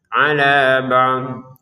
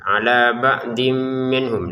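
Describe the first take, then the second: First: The reading stops fully after this word. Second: The word runs straight on into the next word. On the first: The speaker calls it right. "kita harus berhenti. Ala ba'd gitu, berhenti nafas" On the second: The speaker calls it wrong. "jangan melanjutkan atau menggabungkan ba'din dengan min"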